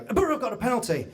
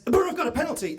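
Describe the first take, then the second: First: "The Borough have got a penalty" rattled off fast, only a little raised; quicker repeat. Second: Excited call. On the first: The same man repeats the radio news to passers-by, quick and brisk. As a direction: repeat it quickly, less lifted. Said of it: "and he's listening to it on the radio". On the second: A man leaning out of a car window shouts the radio news, excited. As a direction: pitch jumps way up on "The Borough have got a penalty". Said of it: "and he says". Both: Retold or imitated.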